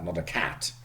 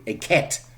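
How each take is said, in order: First: The vowel sounds like a flat A. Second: The vowel sounds like an E. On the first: This is how an English speaker says it. The speaker calls it right. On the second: This is how a German speaker says it. The speaker calls it wrong. "Germans will refer to it as a"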